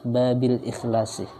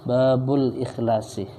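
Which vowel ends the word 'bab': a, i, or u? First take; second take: i; u. First: The word bab ends with an i vowel. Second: The word bab ends with a u vowel. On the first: The phrase is read in the genitive case. "menurut yang asah dibaca jar" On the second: The phrase is read in the nominative case. "boleh dibaca rofa"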